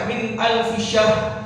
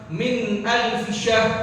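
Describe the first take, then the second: The two takes are said the same way.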